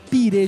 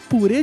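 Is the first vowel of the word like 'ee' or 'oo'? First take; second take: ee; oo. First: The first vowel sounds like 'ee'. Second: The first vowel sounds like 'oo'. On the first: "ou é pirê de batata?" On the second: "é purê de batata"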